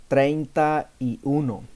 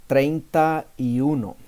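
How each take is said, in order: No difference in how they are said.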